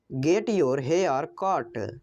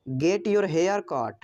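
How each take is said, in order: First: Slow, lower "Get your hair cut"; slow repeat. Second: Said in the usual way. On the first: Shown as a demonstration. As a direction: repeat it slowly so learners can follow. (धीरे और साफ़ दोहराना) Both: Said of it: "English sentence said twice".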